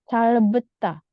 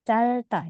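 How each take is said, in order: First: A b sound is heard in the middle. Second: No b sound is heard in the middle. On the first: The speaker calls it wrong. "Jadi tidak perlu calbeta" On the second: The speaker calls it right. "B-nya nggak dibaca ya, biepnya nggak dibaca"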